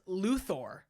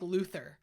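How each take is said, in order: First: The last syllable sounds like 'Thor'. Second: The last syllable sounds like 'ther'. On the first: The speaker calls it right. "like Thor, God of Thunder" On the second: The speaker calls it wrong. "It's not like Luthor"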